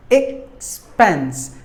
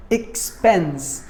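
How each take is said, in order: First: "Expense" split into ex, then spense; short gap between the two syllables of "Expense". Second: Said in the usual way. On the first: Shown as a demonstration. Teacher breaking down the word for learners, "Expense" split in two. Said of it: "There are two syllables". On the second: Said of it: "word number seven".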